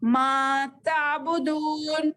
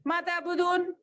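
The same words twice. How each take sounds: First: मा ताबुदून slowly with the दू in ताबुदून held long; correct madd. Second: मा ताबुदून clipped short, दू not stretched, voice higher; wrong quick reading. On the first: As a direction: draw out दू in ताबुदून properly. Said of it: "इस तरह". (ताबुदून का दू पूरा खींचकर) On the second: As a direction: say मा ताबुदून fast with no madd. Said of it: "ऐसा भी नहीं बोलना". (मा ताबुदून जल्दी, बिना मद के) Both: Shown as a demonstration.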